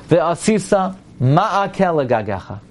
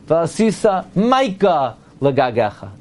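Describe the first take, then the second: First: The middle word has separate vowels: ma-a-keh. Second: The middle word is run together as maika.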